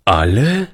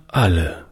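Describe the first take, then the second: First: Put-on surprised rising "Alle?" from the boy; astonished. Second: Said in the usual way. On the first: A narrator's reading. Boy Toni asking whether all are dead, astonished rise. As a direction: let "Alle?" climb in disbelief. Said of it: "fragte der Junge verwundert".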